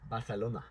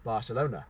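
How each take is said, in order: First: It is said with a put-on Spanish accent. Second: It is said with a plain English accent.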